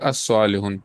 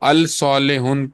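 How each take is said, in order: First: The l merges into a doubled s sound. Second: The article is said with a clear l sound. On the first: The speaker calls it right. "अस सालिहुन पढ़ा जाएगा" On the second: The speaker calls it wrong. "अल सालिहुन पढ़ने के बजाय"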